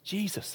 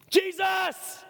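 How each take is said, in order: First: Said in the usual way. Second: Sudden high-pitched yell of a name; desperate shout. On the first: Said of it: "that was the first word". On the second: Acted. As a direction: cry out JESUS to be noticed. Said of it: "what did he shout?".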